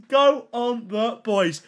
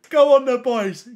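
First: Slow, stretched-out cheer; drawn-out cheer. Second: Loud rallying cheer to the chat; excited cheer. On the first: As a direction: draw out every word as you cheer. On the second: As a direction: cheer the lads on loudly. Cheering near like milestone. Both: Real, not acted.

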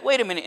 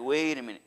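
First: Mild mock indignation, pitched higher; mad. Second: Hushed, lowered mock dawning fear; afraid. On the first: David first reacting to what happened, mildly mad. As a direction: object sharply, imitating someone upset. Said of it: "at first he got mad". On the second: David realizing he is at fault, mildly afraid. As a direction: back off softly, imitating sudden caution. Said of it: "he was afraid of God".

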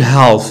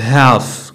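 First: "half" with an L before the F; L sounded. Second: "half" as haff, no L; silent L. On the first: Teacher shows the wrong way, L sounded in "half". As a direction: say "half" as halff, L audible. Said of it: "ما كنقولوش half". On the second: Teacher models the soft form, silent L in "half". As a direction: say "half" with the L dropped. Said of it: "كتكون soft". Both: Shown as a demonstration.

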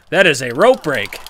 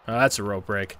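First: Loud, outraged insistence; indignant shout. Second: Said in the usual way. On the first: Real, not acted. Gamer yelling at the game ref, outraged. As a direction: yell it at the ref. Protesting the rope break.

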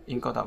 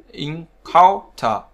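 First: Said in the usual way. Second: Encounter drawn out slowly, COUN punched louder; slow teaching demo of encounter, en-COUN-ter; stress on second syllable. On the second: Shown as a demonstration. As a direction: stretch encounter and hit the middle syllable. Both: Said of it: "trọng âm rơi vào âm tiết thứ hai".

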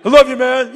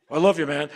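First: High, loud gruff bro line; macho bro voice. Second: Casual bro love. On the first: Shown as a demonstration. Showing how men must say it, a loud bro voice. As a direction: keep it manly and casual. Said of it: "We have to". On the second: Retold or imitated. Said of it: "how we men are".

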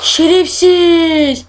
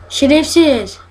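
First: Şerefsiz stretched out very slow, a bit higher and louder; drawn-out curse. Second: Said in the usual way. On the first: Real, not acted. Gamer cursing the monster that found him, long drawn-out curse. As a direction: drag out Şerefsiz slowly, fed-up groan. Monster arrives at hiding spot.

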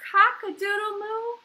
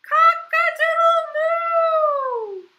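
First: Said in the usual way. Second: High, loud, drawn-out moo-crow; crowing cow. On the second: A narrator's reading. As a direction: crow slowly, letting the moo ring out. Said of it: "And the cow went".

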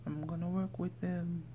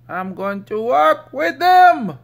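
First: Said in the usual way. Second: Much higher, louder goofy voice, stretching them; silly put-on voice. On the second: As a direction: belt it out in a cartoonish voice, falling at the end.

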